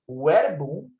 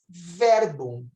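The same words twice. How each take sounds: First: It begins with a w-like u sound. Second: It begins with a v sound. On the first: This is the restored classical pronunciation. "não existia a letra V em latim. Ela era pronunciada como U" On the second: This is the church pronunciation. "falamos verbum"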